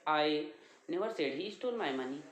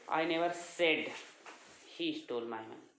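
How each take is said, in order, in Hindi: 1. 'my' पर मुख्य ज़ोर है। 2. 'said' पर मुख्य ज़ोर है। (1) "हो सकता है किसी और का लिया।" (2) "मैंने कहा नहीं, बल्कि हो सकता है देखा।"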